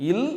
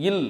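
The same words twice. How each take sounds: First: "இல்" with a light dental l; tongue tip at the front for "இல்"; lightly touched l in "இல்"; small l. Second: "இல்" with a pressed retroflex l; tongue slightly further back and pressed for "இல்"; heavy, curled-back l in "இல்"; big l. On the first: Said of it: "சொல்லி பாருங்க". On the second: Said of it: "நாக்கு லைட்டா உள்ள போது அழுத்தம்". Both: Shown as a demonstration.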